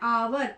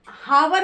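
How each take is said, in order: First: The word begins with a vowel sound. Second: The word begins with an h sound. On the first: The speaker calls it right. "यहाँ पर हम इसको बोलते हैं आवर" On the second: The speaker calls it wrong. "यहाँ पर हम हावर नहीं बोल रहे हैं"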